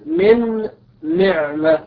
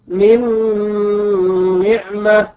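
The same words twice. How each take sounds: First: The n sound is pronounced separately before the n. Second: The n sound merges into the following n. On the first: The speaker calls it wrong. "فلا نقول" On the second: The speaker calls it right. "بل نقول"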